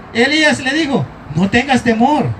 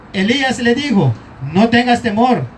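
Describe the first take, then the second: Both takes have the same delivery.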